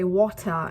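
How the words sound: It is spoken with a British accent. "in British accent"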